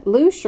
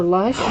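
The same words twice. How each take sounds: First: First try at "Lush", with a long oo as in "loose"; pronunciation guess. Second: Second try at "Lush", short u as in "hush"; pronunciation guess. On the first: Streamer puzzling over a chatter's name, "Lush" said as "loosh". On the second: Streamer unsure of a chatter's name, "Lush" questioned with short u. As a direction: ask "Lush" to rhyme with "brush". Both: Shown as a demonstration. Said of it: "I can't pronounce anything".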